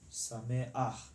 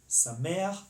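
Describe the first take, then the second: First: The stress falls away from the second vowel. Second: The stress falls on the second vowel. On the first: The speaker calls it wrong. "as opposed to" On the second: The speaker calls it right. "The um, uh, accent is on the second vowel"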